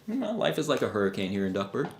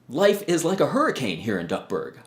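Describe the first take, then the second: First: It sounds indifferent and uninterested. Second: It sounds excited and enthusiastic.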